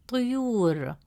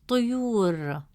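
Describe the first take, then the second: No difference in how they are said.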